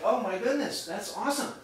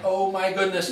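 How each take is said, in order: First: Lightly acted happy reaction; pleased amazement. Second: Louder exclamation of acted dismay. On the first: Telling the audience about great pay, pleased amazement. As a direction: retell a pleasant surprise, pitched up slightly. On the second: Late speaker caught in the rain, dismayed. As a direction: retell being caught out, with comic dismay.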